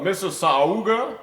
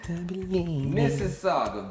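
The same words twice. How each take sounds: First: It is said in an imitated celebrity voice. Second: It is said in the speaker's natural voice.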